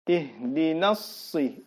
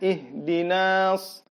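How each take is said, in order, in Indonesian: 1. Vokal pada 'na' pendek, langsung mengalir. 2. Vokal pada 'na' dipanjangkan. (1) "Jadi dia langsung masuk" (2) "ini dia panjangkan"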